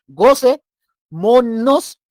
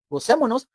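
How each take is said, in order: First: Drawn-out, loud, high "Gocémonos" called out; joyful call. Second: Said in the usual way. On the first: Shown as a demonstration. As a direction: stretch "Gocémonos" like calling the crowd to party. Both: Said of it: "y hacemos".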